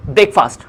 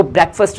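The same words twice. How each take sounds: First: ब्रेकफास्ट said brek-faast, with a long open a; the common mistake, ब्रेकफास्ट as brek-faast; wrong breakfast. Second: ब्रेकफास्ट said brek-fust, with a short u sound; the right way, ब्रेकफास्ट as brek-fust; correct breakfast. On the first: Teacher shows students the common mistake, ब्रेकफास्ट as brek-faast. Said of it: "ब्रेकफास्ट नहीं रहता". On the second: Teacher shows students the correct form, ब्रेकफास्ट as brek-fust. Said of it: "वो ब्रेकफास्ट रहता है". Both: Shown as a demonstration.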